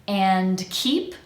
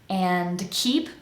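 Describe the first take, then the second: No difference in how they are said.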